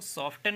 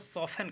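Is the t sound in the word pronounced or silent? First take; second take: pronounced; silent. First: The t sound is pronounced in the middle. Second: The t sound is silent in the middle. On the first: The speaker calls it wrong. "इसको सॉफ्टन नहीं कहेंगे" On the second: The speaker calls it right. "इसको सॉफन कहेंगे"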